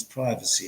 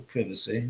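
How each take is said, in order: First: "privacy" with a long i, as in "prize"; first syllable of "privacy" rhymes with "eye". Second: "privacy" with a short i, as in "privilege"; first syllable of "privacy" like "give". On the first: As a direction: say "privacy" as PRY-vuh-see. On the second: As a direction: say "privacy" as PRIV-uh-see. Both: Shown as a demonstration. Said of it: "whatever you like to say".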